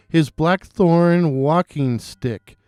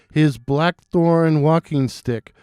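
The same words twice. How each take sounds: The two takes are said the same way.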